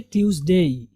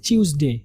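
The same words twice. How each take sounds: First: ट्यूसडे said as "TYOOZ-day"; recommended pronunciation. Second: ट्यूसडे said as "CHOOZ-day"; ch in place of t in ट्यूसडे; British pronunciation. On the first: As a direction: keep a clean t at the start of ट्यूसडे. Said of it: "तो आप इसको पढ़ेंगे". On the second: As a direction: start ट्यूसडे with a British ch sound. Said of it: "चा की आवाज़ के साथ पढ़ते हैं". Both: Shown as a demonstration.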